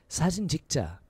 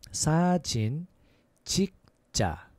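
First: It is said a little faster. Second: It is said at a slower, normal pace.

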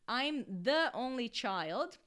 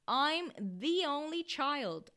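First: The word 'the' is said as 'thuh'. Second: The word 'the' is said as 'thee'. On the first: The speaker calls it wrong. "eu não falo I'm the only child?" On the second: The speaker calls it right. "esse the vai virar the, vai ter o som de the"

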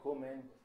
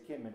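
First: It is said in the Litvak Yiddish accent. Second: It is said in the Polish Yiddish accent.

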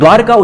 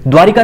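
First: The word has two syllables, without an 'i' vowel. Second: The word has three syllables, with an 'i' vowel. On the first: The speaker calls it right. "द्वारका उच्चारण सही है" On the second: The speaker calls it wrong. "द्वारिका नहीं"

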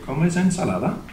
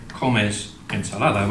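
First: It ends rising, like a question. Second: It ends falling, like a statement.

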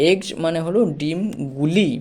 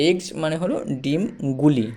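No difference in how they are said.

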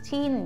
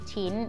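First: The syllable is said with a falling tone. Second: The syllable is said with a high tone. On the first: "เสียงโทจะเป็นรูปเอก" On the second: "เสียงตีก็จะเป็นรูปโท"

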